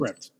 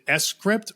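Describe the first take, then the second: First: The name begins directly with 'script'. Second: The name begins with a separate 'ess' sound. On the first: "or is it" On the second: "is it S script"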